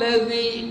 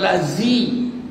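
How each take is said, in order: First: The middle consonant is a soft 'dh' sound. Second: The middle consonant is a 'z' sound. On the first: The speaker calls it right. "Zal, zal" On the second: The speaker calls it wrong. "bukan lazi"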